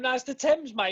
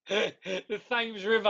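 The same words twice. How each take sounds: First: A Londoner putting it right with Thames as tems, mate; correct local pronunciation. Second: The Thames said slowly with a hard th, like thames; mock-reading The Thames with th and the long a of same; slow, teasing The Thames, th sound on purpose; wrong pronunciation. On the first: Retold or imitated. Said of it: "someone's telling him". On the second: Shown as a demonstration.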